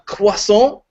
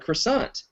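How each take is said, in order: First: The word is said with French-style sounds. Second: The word is said with Midwestern American sounds. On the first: It sounds pretentious. The speaker calls it wrong. "I don't go into like a Starbucks and be like" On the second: It is the natural local way. The speaker calls it right. "the Midwestern version of it"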